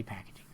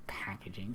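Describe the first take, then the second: First: Fancy packaging whispered as an aside; whispering. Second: Said in the usual way. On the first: Real, not acted. Repeats word, second take whispered.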